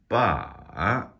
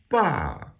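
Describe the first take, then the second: First: The pitch dips down, then rises again. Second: The pitch falls sharply from high. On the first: "That's an exaggerated third tone where it dips down and then back up again" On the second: "which is a falling tone"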